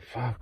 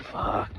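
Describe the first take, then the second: First: Soft voiced muttered curse; quiet curse. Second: Breathy unvoiced whispered curse. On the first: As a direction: say it under your breath, voiced. Retold reaction to chicken salt. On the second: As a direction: whisper it, no voice at all. Retold reaction, said again.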